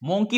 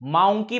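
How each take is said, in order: First: The first vowel sounds like 'oh'. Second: The first vowel sounds like 'ow'. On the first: "मोंकी म्हणतो का आपण?" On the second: "औ. माउंकी म्हणतो का? नाही"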